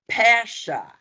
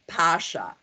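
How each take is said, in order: First: The first vowel is a flat A sound. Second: The first vowel is an open ah sound. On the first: This is how it is said in Canada. "in Canada, they say Pasha ... I call it a flat A" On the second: This is the usual stage pronunciation. "we have a stage A, the ah"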